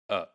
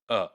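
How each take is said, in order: First: It is said with a reduced schwa vowel. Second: It is said with a reduced schwa vowel.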